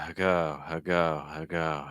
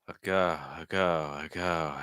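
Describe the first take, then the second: The two takes are said the same way.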